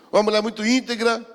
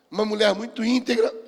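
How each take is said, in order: Both takes have the same delivery.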